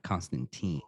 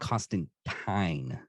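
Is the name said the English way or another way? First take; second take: other; English. First: The name is said with a non-English pronunciation. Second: The name is said with an English pronunciation. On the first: This is how the speaker thinks it should be said. The speaker calls it right. "not Constantine" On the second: This is how the show says it. The speaker calls it wrong. "they call him Constantine"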